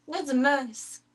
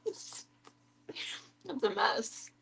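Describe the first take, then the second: First: Cutesy voice. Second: Slow laugh-filled drawl. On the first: Pretend. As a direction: tease the dog fondly. Repeat in cutesy voice. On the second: Real, not acted. Laughing at dog's feet.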